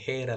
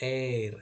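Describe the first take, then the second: First: The word begins with an audible h sound. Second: The word begins directly with a vowel sound. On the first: The speaker calls it wrong. "ಹೇರ್ ಅಲ್ಲ" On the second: The speaker calls it right. "ಎಚ್ silent letter ಆಗಿಬಿಟ್ಟು"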